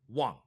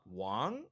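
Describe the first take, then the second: First: The pitch drops abruptly and sharply. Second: The pitch starts middle and rises upward. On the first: "tone four is a, is abrupt" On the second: "tone two goes middle up"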